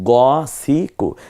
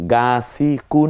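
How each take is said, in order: First: The first vowel is a darker, rounded o. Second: The first vowel is a clear open a. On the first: The speaker calls it right. "সহি উচ্চারণ করব গ সি কু" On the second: The speaker calls it wrong. "গা সি কু না হয়ে"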